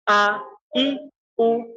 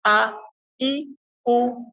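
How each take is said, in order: Both takes have the same delivery.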